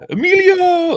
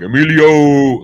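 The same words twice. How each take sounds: First: The name is said in a high pitch. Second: The name is said in a normal pitch.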